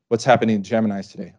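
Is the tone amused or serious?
serious. It is said earnestly, in a serious tone.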